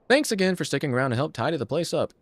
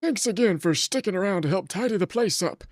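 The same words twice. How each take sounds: First: It is said in his natural voice. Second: It is said in a put-on old-man voice.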